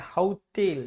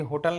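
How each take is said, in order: First: "हाउटेल" as hau-TEL with a long ending; correct pronunciation. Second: "होटल" as everyday Hindi ho-tal; short, unstressed second syllable in "होटल"; wrong pronunciation. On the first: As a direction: glide on hau, then a drawn tel in "हाउटेल". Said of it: "ये होता है हाउटेल". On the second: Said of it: "ये होटल नहीं होता है". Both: Shown as a demonstration.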